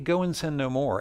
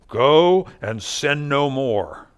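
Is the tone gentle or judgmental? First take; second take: gentle; judgmental. First: It is said simply and gently. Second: It is said big, bold and judgmental.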